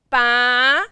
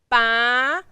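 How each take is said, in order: First: The pitch rises from mid to high. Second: The pitch rises from mid to high.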